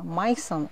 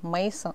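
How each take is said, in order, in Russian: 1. Имя произносится по-немецки. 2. Имя произносится по-русски. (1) "это на немецком звучит" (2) "это перевод на русский"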